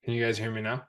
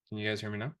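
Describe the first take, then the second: First: Ventriloquist, lips not moving; talking with mouth closed. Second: Said in the usual way. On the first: Shown as a demonstration. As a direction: speak without moving your lips. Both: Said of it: "talk without moving my lips".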